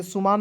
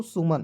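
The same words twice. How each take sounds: First: सुमान with a long aa in the last syllable; सुमान misread with an open 'maan' ending; wrong long vowel. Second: सुमन with a short last vowel; सुमन ending on short 'man', no long aa; correct short vowel. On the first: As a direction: say सुमान as 'su-maan'. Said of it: "इसे सुमान नहीं पढ़ेंगे". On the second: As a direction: say सुमन as 'su-mun'. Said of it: "क्या पढ़ेंगे दोस्तों?". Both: Shown as a demonstration.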